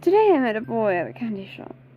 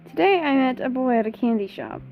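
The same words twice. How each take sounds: First: It is read in Periwinkle's character voice. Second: It is read in the speaker's normal voice.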